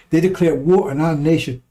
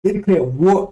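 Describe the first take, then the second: First: "war" leaned on, said again firmly; repeated with emphasis. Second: Said in the usual way. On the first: Shown as a demonstration. Streamer repeating his point, stressing "war". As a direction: hammer "war" home the second time. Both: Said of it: "let me say it again".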